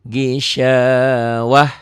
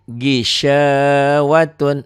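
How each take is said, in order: First: The word ends with a soft h sound. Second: The word ends with a final n sound. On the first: The reader stops at this word. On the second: The reader continues on without stopping.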